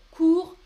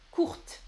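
First: "Court" said loud and clear with no T sound at the end; silent final T. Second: "courte" with the final T clearly sounded; T pronounced. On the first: Teacher to stream viewers, showing the masculine "Court" with silent T. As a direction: punch out "Court", ending on the R, T kept silent. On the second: Teacher to stream viewers, contrasting the feminine "courte" with a sounded T. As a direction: land crisply on the T of "courte". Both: Shown as a demonstration. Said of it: "tu prononces le T".

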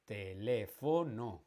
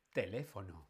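First: Teléfono slowly as te-lé-fo-no; syllable by syllable. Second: Said in the usual way. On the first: Shown as a demonstration. Teacher hunting for the tónica, Teléfono broken slowly into syllables. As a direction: separate each syllable of Teléfono. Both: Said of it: "La tónica, la fuerza está".

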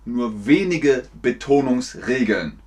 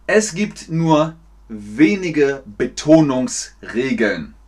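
First: Said in the usual way. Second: Slow, deliberate, word by word; slow teacher delivery. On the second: Shown as a demonstration. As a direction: pace it out carefully for learners. Langsam für Lernende vorgesprochen. (langsam, Wort für Wort)

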